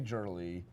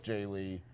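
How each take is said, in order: First: The name starts with a 'Jur' sound. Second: The name starts with a 'Jay' sound. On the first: The speaker calls it wrong. "I always mispronounce your name and say Jurley" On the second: The speaker calls it right. "even though I know it's Jay Lee"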